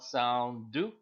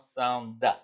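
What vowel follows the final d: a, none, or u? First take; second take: u; a. First: A short u vowel follows the final d. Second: A short a vowel follows the final d. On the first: "It's not sound do" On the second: "It's not sound da"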